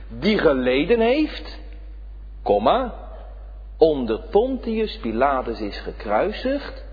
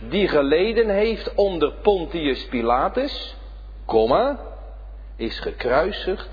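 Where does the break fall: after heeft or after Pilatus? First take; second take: after heeft; after Pilatus. First: The break comes right after the word heeft. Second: The break comes right after the word Pilatus. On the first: The crucifixion specifically took place under Pilate. The speaker calls it right. "en daar pleit ik eigenlijk voor" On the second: The suffering as a whole took place under Pilate. The speaker calls it wrong. "Dan staat die komma na Pilatus"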